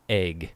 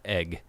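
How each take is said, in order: First: "Egg" as AYG, vowel raised; own pronunciation. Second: "egg" with short E, as in bed; rejected pronunciation. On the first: Showing viewers their own way, AYG. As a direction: say "Egg" to rhyme with vague. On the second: Showing viewers the other way, short-E egg. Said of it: "Not egg". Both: Shown as a demonstration.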